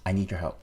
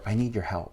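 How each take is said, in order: First: It sounds casual and friendly, as between equals. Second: It sounds gentle and supportive. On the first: The listener is treated as a partner. "And then an equal partnership" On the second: The listener is treated with care.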